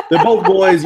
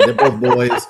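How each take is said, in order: First: Higher and louder, outraged; indignant outburst. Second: Said in the usual way. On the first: Retold or imitated. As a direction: shout it as the shocked owner. Owner repeats in outrage.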